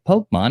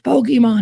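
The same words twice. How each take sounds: First: The first part sounds like the word 'poke'. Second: The first part sounds like 'po-kay'. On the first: The adult teases the kids by reading it literally. The speaker calls it wrong. "It doesn't say Poke" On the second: The kids insist on the usual name. The speaker calls it right. "They're like, "It's Pokemon.""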